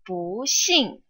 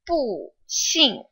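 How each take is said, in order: First: 不 is said with a rising tone. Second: 不 is said with a falling tone. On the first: "不 takes on the second tone" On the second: "originally; 不 normally is a fourth tone"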